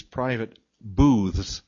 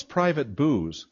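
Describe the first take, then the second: First: "booths" with a clear TH before the final S; careful TH in "booths". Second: "booze" ending in a plain Z, no TH; misheard as "booze". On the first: Real, not acted. Speaker describing the restaurant seating, "booths" said carefully with TH. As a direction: articulate "booths" carefully, keeping the TH audible. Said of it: "I have to say that very carefully". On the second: Retold or imitated. Puzzled listener asking about the seating, "booze" with a Z ending. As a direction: drop the TH so it becomes "booze". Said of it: "No, with a T H S".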